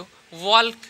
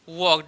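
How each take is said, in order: First: The L sound is pronounced in the word. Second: The L sound is left out of the word. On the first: The speaker calls it wrong. "बहुत लोग ऐसे पढ़ते हैं वॉल्क पढ़ते हैं, लेकिन इसका उच्चारण वॉल्क नहीं होगा" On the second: The speaker calls it right. "इसका उच्चारण होगा वॉक"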